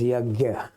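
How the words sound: The middle is sounded as 'gy'. This is how it is said in North India. "In North India, as yagya"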